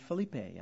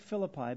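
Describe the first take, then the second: First: It uses the more original pronunciation. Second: It uses the familiar English pronunciation. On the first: This is the properly pronounced form. "than Philippe" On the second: This is the way the speaker is used to. "I like Philippi better"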